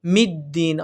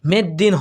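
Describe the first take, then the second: First: "মিদ্দিন" with a clear i, "mid-din"; correct vowel. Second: "মেদ্দিন" with an e, "med-din"; wrong pronunciation. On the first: Teacher showing how we will read it, corrected "mid" vowel. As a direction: keep "mid" crisp in "মিদ্দিন". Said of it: "আমরা পড়ব". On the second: Teacher rejecting the common error, mistaken "med" vowel. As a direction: say "med", not "mid", in "মেদ্দিন". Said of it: "হবে না". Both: Shown as a demonstration.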